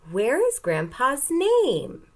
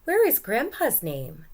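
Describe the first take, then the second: First: Slow, higher and louder, every word clear; slow modelled question read; slow question read-along. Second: Asking, higher and louder; boy asking where Grandpa's name is; question voice. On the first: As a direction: model the question for the class to copy. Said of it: "Let's read this sentence together". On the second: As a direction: read it as a real question. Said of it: "It goes up at the end". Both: Shown as a demonstration.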